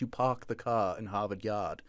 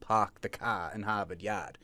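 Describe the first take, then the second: First: It is said in a British accent. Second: It is said in a Boston accent.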